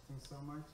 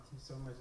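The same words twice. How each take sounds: The two takes are said the same way.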